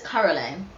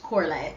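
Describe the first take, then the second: First: The name begins with a 'car' sound. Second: The name begins with a 'core' sound. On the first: The speaker calls it wrong. "I know I say it wrong. I say it like the, the guy" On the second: The speaker calls it right. "So it's Coraline"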